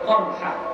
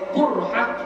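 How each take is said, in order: First: The first vowel is an open 'a'. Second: The first vowel is a rounded 'u'. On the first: "boleh qarhah" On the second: "boleh qurhah"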